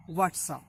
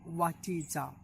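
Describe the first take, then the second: First: "What's up?" contracted into two beats; shortened form. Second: "What is up?" as three separate words; full form. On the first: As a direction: merge "is" into "What's". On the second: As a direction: keep "is" whole in "What is up?". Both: Shown as a demonstration. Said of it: "It is the shortened form of".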